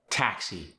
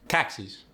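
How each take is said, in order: First: Said in the usual way. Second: South African "taxis" with a strong T; South African accent. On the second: Shown as a demonstration. Teaching the strong T, South African "taxis". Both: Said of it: "you get a strong T".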